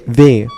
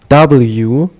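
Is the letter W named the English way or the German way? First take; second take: German; English. First: The letter is named the German way. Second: The letter is named the English way. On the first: "we say W, which is literally just the sound the W makes" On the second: "instead of saying W"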